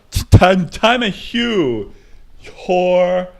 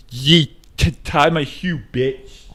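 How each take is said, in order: First: Louder, slower, higher put-on voice. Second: Lightly put-on slurred voice, a touch higher. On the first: The same bit to the girlfriend again, bigger louder put-on voice. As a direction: push the fake voice harder. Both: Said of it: "wrist and go like this".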